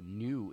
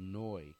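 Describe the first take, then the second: First: New said the English way, like noo; New with a plain English oo vowel; English pronunciation. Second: Neu said the German way, like noy; German pronunciation. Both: Shown as a demonstration. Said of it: "or New in English".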